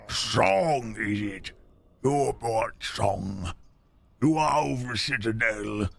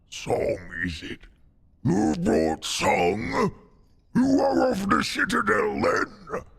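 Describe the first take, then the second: First: It is said in his normal voice. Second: It is said in a put-on character voice.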